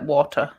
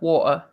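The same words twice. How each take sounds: First: The middle T sound is pronounced strongly. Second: The middle T sound is dropped. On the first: This is how people speak in the speaker's home region. "in my accent, it's like water. Like my um, home accent pronounces the T's really strongly" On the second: This is how people speak in the south of the UK. "We also don't pronounce team words like water here in South U K"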